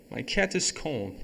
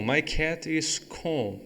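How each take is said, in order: First: Said in the usual way. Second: Very slow, careful reading; slow model sentence for students; slow demo. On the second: Shown as a demonstration. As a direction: spell the sentence out slowly. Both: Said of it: "eu chego e falo".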